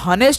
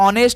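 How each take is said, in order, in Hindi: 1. शब्द की शुरुआत h ध्वनि से होती है। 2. शब्द की शुरुआत स्वर से होती है, h नहीं है। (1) "हनेस्ट हम लोग नहीं बोलते हैं" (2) "इसका सही उच्चारण ऑनेस्ट होता है"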